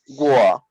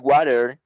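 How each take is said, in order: First: It is said in an English accent, t dropped. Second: It is said in an American accent. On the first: "some people in England and they say war" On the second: "Americans say water"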